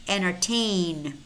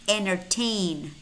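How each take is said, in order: First: The first t sound is silent. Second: The same.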